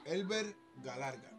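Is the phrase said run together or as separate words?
separate words. The words are said apart as separate words. It is heard as a crude phrase. The speaker calls it wrong. "No, pero no es así que va, no es así"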